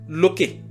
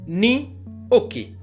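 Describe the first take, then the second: First: One merged word, starting with an l sound. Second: Two words, starting with an n sound.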